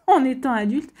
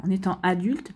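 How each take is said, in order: First: Laughing through the words; with a little laugh. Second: Said in the usual way. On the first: Real, not acted. Repeats phrase with a laugh.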